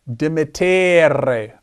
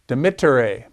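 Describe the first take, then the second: First: The vowel before the final syllable is long. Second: The vowel before the final syllable is short. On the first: The speaker calls it wrong. "It's not dimittere. Uh-uh" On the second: The speaker calls it right. "It's a short vowel"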